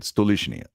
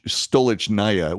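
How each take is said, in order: First: The ending is shortened, like 'nia'. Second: The ending is said in full, like 'naya'. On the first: The speaker calls it right. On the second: The speaker calls it wrong.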